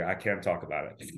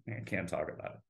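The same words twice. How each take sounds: First: Said in the usual way. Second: Same words again, much softer, trailing off; mock-haunted fade. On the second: Refusing to talk about dental school trauma, fading to a hush. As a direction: let it die away as if haunted.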